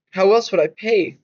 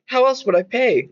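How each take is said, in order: First: Said in the usual way. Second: Raised, anxious question; higher pitched question. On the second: Acted. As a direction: ask it higher and more urgent. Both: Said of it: "I asked".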